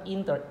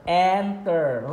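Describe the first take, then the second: First: The first vowel sounds like the 'i' in 'in'. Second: The first vowel sounds like the 'e' in 'end'. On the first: The speaker calls it wrong. "Not inter" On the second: The speaker calls it right.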